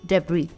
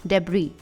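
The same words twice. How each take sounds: First: The final S sound is silent. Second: The final S sound is silent.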